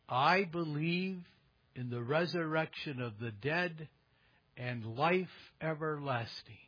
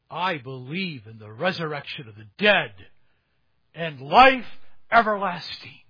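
First: It is spoken at a normal, calm volume. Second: It is shouted loudly.

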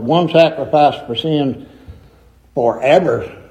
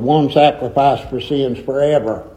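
First: The pause comes before the word 'forever'. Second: The pause comes after the word 'forever'. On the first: The sitting down lasts forever. The speaker calls it wrong. "I ain't talking about his forever sitting down" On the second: The sacrifice lasts forever. The speaker calls it right. "You pause at the comma"

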